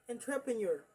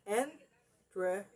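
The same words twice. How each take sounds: First: Said in the usual way. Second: "Entrepreneur" in separate syllables with pauses; "Entrepreneur" one piece at a time; broken into small pieces. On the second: Shown as a demonstration. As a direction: sound out "Entrepreneur" as en-tre-pre-neur. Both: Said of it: "divide it or break it".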